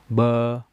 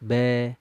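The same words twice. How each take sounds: First: The vowel is said with the mouth opened too wide. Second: The vowel is said with the mouth barely opened. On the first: "kalau terlampau buka mulut, contohnya gini" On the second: "Kalau kurang seperti ini"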